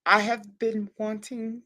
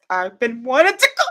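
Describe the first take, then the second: First: Slow, measured restart; deliberately slow and composed; calming down. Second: Can barely contain the excitement; overexcited. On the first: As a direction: rein in the excitement, word by word. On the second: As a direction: build into a squeal of excitement on "to go". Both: Real, not acted. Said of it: "I have to calm down".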